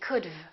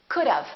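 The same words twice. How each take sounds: First: It ends without a short 'uh' vowel before v. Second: It ends in a short 'uh' vowel plus v. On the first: The speaker calls it wrong. "add the V and they say could've" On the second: The speaker calls it right. "We put a little uh sound in there"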